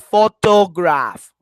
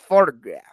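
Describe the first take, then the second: First: The middle vowel is a full, clear o. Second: The middle vowel is a weak, reduced schwa. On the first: The speaker calls it wrong. "We don't say photograph. Okay, no, it's not like o o ah" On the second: The speaker calls it right. "It's like it's like photograph"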